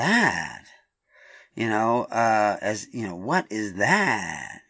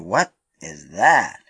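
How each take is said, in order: First: It is asked with an annoyed, resentful inflection. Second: It is asked with genuine, open curiosity. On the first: The asker is fighting against the pain. The speaker calls it wrong. "When you put in that other inflection, you don't really want to know" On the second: The asker really wants to know the answer. The speaker calls it right. "did you ask rightly?"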